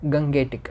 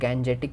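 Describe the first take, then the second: First: The middle consonant is a hard g sound. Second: The middle consonant is a soft j sound. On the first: "कई लोग गंगेटिक ऐसा बोला जाता है" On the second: "बहुत सारे लोग गैंजेटिक भी बोलते हैं"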